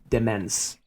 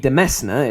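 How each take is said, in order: First: It sounds like 'demence'. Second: It sounds like 'demesna'. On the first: "for seven years this was Demence" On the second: "a more literal pronunciation"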